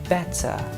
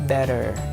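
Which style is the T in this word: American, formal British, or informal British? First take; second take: formal British; American. First: The T is said the formal British way. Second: The T is said the American way. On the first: "general or formal uh, pronunciation" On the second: "In American accent, they pronounce it like"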